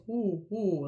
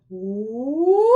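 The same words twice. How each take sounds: First: Open ooh. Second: Loud pinched ooh, space collapsed; collapsed soft palate. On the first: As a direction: keep the big space inside on ooh. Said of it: "We wanna create that space". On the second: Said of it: "what people wanna do is". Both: Shown as a demonstration.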